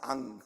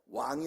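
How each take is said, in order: First: The word starts with a plain vowel. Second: The word starts with a w glide. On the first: The speaker calls it wrong. "항상 앙" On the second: The speaker calls it right. "왕이 아니고"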